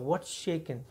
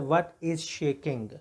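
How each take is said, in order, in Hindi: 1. यह अमेरिकी अंग्रेज़ी लहजे में कहा गया है। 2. यह भारतीय अंग्रेज़ी लहजे में कहा गया है। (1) "उसको इन अमेरिकन तरीके से बोला जाता है" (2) "जो Indian the way of saying है"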